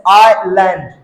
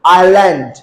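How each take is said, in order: First: आइलैंड in two parts, आइ then लैंड; split into parts. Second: आइलैंड joined, with a long falling आइ; blended pronunciation. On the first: Teacher showing the आई sound, word split in two. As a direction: break आइलैंड after a long आइ. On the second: Teacher putting the word together, blended and falling. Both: Shown as a demonstration. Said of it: "आई pronounce करेंगे".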